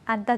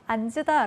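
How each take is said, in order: First: The n sound is kept, giving 'antta'. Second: Both consonants are pronounced, with an added vowel. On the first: The speaker calls it right. "안따 되겠습니다" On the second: The speaker calls it wrong. "앉으다 라고 발음하는 건 안 된다"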